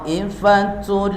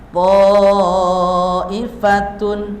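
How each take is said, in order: First: The final n merges into an l. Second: The final sound is a clear n. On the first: The ending is merged into the next word. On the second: This is the basic form before merging.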